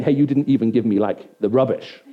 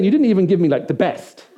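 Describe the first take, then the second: First: Downplayed complaint, dropping onto "rubbish"; stress on RUBBISH. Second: Louder, higher complaint landing on "best"; stress on BEST. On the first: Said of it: "he's not saying". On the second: What the older son means about the young goat, indignant stress on "best". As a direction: protest it, then set "best" apart. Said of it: "He's saying". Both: Shown as a demonstration.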